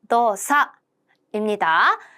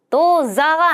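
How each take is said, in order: First: The second syllable starts with a voiceless s. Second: The second syllable starts with a voiced z. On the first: The speaker calls it right. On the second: The speaker calls it wrong. "도자가 아니라"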